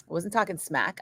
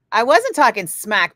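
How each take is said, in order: First: Said in the usual way. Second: Loud, defensive protest; sharp, loud denial of talking smack; indignant denial. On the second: Real, not acted. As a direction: push back hard on the accusation.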